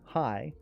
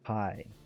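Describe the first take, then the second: First: It sounds mockingly cheerful and sarcastic. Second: It sounds bitter and full of resentment. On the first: Seeing you does not make me happy. "but now it's, "Oh, it's you. Yay. My day's complete." Sarcasm" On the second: Seeing you has ruined my day. "I hate the fact that I got to see you today. My day is ruined"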